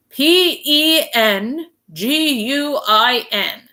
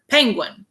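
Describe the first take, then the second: First: P E N G U I N, each letter slow and separate; spelled out. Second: Said in the usual way. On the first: Shown as a demonstration. Mister Popper spells the word for the clerk, slowly. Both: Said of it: "he had better spell it".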